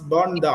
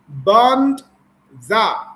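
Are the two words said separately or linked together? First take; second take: linked; separately. First: The two words are linked together. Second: The two words are said separately.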